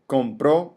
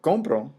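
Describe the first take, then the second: First: The stress is on the last syllable. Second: The stress is on the first syllable. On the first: Someone else bought it in the past. "with an accent is referring to a third person" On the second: I buy it now. "without an accent"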